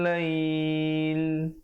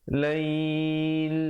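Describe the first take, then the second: No difference in how they are said.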